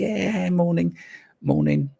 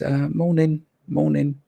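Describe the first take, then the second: First: It is said in a happy, bubbly way. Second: It is said in a flat, unhappy way.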